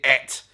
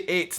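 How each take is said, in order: First: The vowel is short, like 'et'. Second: The vowel is long, like 'eight'. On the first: "The letters et literally is how you would phonetically put it" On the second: "we do say ate now quite a lot"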